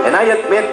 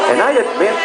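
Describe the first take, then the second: No difference in how they are said.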